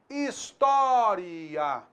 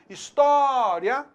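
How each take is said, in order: First: The final vowels are drawn out more fully. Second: The final vowels are said lightly, run together.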